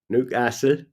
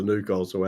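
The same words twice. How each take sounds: First: "Newcastle" in Geordie, short flat a; Newcastle accent. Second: Said in the usual way. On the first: Retold or imitated. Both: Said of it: "I love the Newcastle accent".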